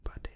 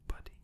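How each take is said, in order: Both takes have the same delivery.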